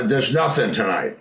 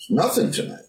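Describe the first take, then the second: First: Said in the usual way. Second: Rising, higher question on nothing tonight; incredulous echo. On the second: Retold or imitated. Bandleader questioning the tour manager's answer, incredulous. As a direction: echo it back as a disbelieving question.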